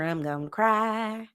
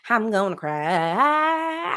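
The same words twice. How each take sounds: First: Slow, drawn-out mock crying line; mock country wail. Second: Very slow, stretched mock sob line; mock country wail. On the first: Host parodying a country breakup lyric, slow. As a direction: stretch the cry like a parody. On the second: Host repeating the lyric slower, more hammed. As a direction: drag it out like a hammed-up ballad. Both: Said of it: "it's a little too country".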